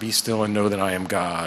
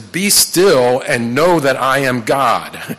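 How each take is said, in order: First: It is said softly, calm and restful. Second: It is said forcefully, as a sharp command.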